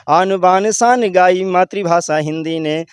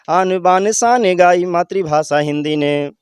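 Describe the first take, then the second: No difference in how they are said.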